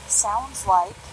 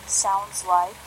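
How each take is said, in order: Both takes have the same delivery.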